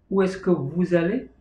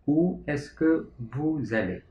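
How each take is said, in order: First: Said in the usual way. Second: "Où est-ce que vous allez?" said slowly, each word apart, falling at the end; slow repeat. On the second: Shown as a demonstration. Teacher repeating the French question slowly for students. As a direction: say it again slowly so students catch every word. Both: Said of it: "menggunakan kata bantu tanya est-ce que menjadi".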